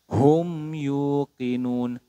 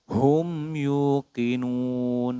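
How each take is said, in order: Both takes have the same delivery.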